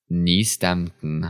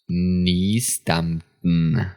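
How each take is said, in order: First: The word is said at normal speed. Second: The word is said more slowly.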